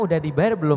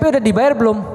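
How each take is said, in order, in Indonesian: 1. Diucapkan dengan nada lembut dan halus. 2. Diucapkan dengan nada kasar dan marah. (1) "kalau ini bisa dikendalikan intonasinya" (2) "Itu yang denger mau jantungan itu"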